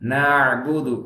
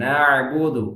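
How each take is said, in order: First: The middle consonant is a flowing throaty ain. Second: The middle consonant is a flowing throaty ain.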